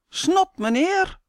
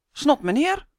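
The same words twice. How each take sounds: First: Much higher, slow cheeky call; cheeky shout. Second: Higher cheeky call out. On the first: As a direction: taunt the neighbour. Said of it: "roept hij". (brutaal roepen, hoog en langzaam) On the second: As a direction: call it again to provoke. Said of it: "roept Sander". (brutaal roepen) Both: A narrator's reading.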